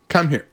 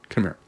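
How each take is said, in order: First: It is said in a stern tone. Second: It is said in a calm, loving tone.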